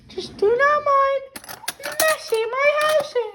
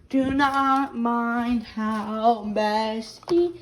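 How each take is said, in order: First: Put-on voice pitched well up; bright high vlog voice. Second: Tired voice after a bad night; real low sick voice. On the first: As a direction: chirp it up high. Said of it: "using this high-pitched voice". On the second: Real, not acted. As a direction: drop to her own rough voice. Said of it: "my voice sounds like this right now".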